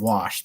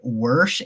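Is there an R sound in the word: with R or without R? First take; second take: without R; with R. First: It is said without any R sound. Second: It is said with an added R sound. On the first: The speaker calls it right. "There's no R in there" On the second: The speaker calls it wrong. "it's people that say "worsh""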